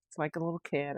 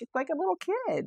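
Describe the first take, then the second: First: Said in the usual way. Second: High-pitched imitation of teasing friends; mock teasing. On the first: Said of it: "And I'm like". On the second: Friends poking fun at her yawning, imitated teasing. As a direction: tease in a much higher voice, imitating. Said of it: "my friend makes fun of me".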